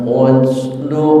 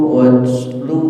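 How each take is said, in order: Both takes have the same delivery.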